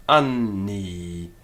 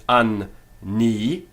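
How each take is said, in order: First: "Anni" joined, the n held into both syllables; weighted N. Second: "an ni" split, a gap after an; broken syllables. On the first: Teacher showing natural weighting, "Anni" with long joined n. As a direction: lean on the nn of "Anni" without a break. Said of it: "weighting of that N to both syllables". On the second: Teacher showing an over-careful reading, "an ni" split in two. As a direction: break "an ni" into two separate syllables. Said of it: "have to break it". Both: Shown as a demonstration.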